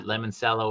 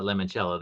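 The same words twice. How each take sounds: First: Limoncello said "lemon-SELL-oh"; quick limoncello with "sello", no CH; soft S in limoncello. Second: Limoncello said "lemon-CHELL-oh"; quick limoncello with "chello". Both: Shown as a demonstration. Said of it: "That's why I said, is it limoncello or is it limoncello?".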